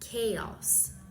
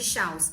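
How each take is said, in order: First: The word does not begin with a sh sound. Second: The word begins with a sh sound. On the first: The speaker calls it right. "mas sim chaos" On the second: The speaker calls it wrong. "A pronúncia não era nada de chaos"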